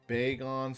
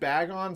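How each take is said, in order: First: It does not sound like the word bag. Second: It sounds like the two words bag on. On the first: The speaker calls it right. "Bagon sounds more mystical" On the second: The speaker calls it wrong. "Bagon sounds wrong because it's just bag, you know, bag on"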